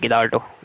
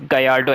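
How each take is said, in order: First: The double L is said as an L sound. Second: The double L is said as a Y sound. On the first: The speaker calls it wrong. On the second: The speaker calls it right. "it's Gallardo actually. these uh, double L's are pronounced as Y"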